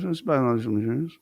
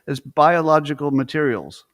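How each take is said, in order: First: It is said quietly and mumbled. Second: It is said loudly and clearly.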